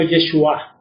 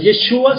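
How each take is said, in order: First: Yeshua with the accent on the closing A; corrected Yeshua, final A stressed. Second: Yeshua without the stress on the last A, rising as set up for correction; stress off the final A. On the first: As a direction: land firmly on the last A of Yeshua. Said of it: "Con acento en la A". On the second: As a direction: say Yeshua the wrong way, final A unaccented. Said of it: "Con acento en la A y H". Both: Shown as a demonstration.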